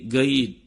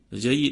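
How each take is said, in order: First: The word starts with a hard g sound. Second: The word starts with a j sound. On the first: Egyptian dialect pronunciation. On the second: Standard Arabic pronunciation.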